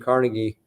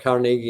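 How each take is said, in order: First: The name is said the non-Scottish way. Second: The name is said the Scottish way.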